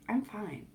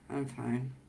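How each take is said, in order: First: It sounds calm and smiling. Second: It sounds flat, frozen and shut down.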